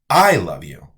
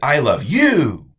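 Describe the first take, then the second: First: The word I carries the stress. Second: The word you carries the stress. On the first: The speaker is the one who loves the listener. "Now that means I am the one who loves you" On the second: The listener is the person who is loved. "the meaning of that sentence is now, you are the person I love"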